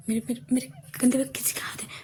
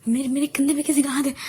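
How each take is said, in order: First: Fast frightened stammering whisper; breathless with fear, barely voiced; hushed panicked stutter; scared whisper. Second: Higher and louder frightened cry; alarmed shout of fear; scared cry. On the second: Acted. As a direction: blurt it out in rising panic. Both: Girl terrified in dark after movie.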